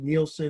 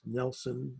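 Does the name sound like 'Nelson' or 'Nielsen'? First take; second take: Nielsen; Nelson. First: The name is said as it is spelled, Nielsen. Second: The name is said to sound like Nelson. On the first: The speaker calls it wrong. "it's spelled Nielsen" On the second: The speaker calls it right. "it's pronounced Nelson"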